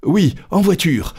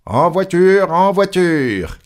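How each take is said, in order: First: High-pitched, exasperated echo; resigned echo of the conductor, pitched up; Passepartout echoing. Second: High, loud, drawn-out call; conductor's shout. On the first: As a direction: repeat the call briskly in a high voice. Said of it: "répétait Passepartout". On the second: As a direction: call passengers aboard, stretching the words. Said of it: "cria le conducteur". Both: A narrator's reading.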